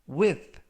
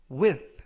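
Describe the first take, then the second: No difference in how they are said.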